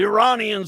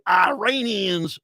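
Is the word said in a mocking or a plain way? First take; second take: plain; mocking. First: The word is said in a plain way. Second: The word is said in a mocking, imitated way.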